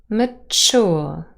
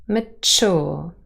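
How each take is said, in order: No difference in how they are said.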